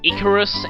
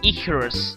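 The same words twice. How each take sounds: First: The name is said plainly, without a throaty sound. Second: The name is said with a weird throaty sound. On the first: It names the mythological figure. "Not quite Icarus, as in the uh, one who flew near the sun" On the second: It is the speaker's own punning name. "Kind of a weird throat noise, but I like pronouncing it like that"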